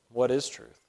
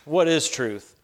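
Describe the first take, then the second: First: The question sounds sincere and curious. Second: The question sounds dismissive and scornful. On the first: The asker really wants to know the answer. "Or a genuine" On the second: The asker doubts that truth can be known.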